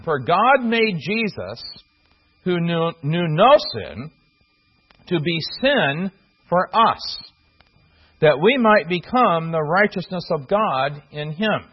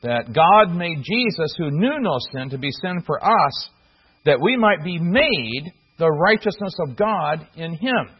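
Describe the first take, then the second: First: Slow, deliberate reading of the verse, each phrase set apart; slow scripture reading. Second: "made" in "be made the righteousness" leaned on with a falling tune; stress on made. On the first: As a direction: read the verse slowly, weighing every phrase. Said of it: "you can actually translate, the verbs ... the same". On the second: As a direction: lean on "made" as the matching verb. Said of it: "the old King James might have done something like this". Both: Shown as a demonstration.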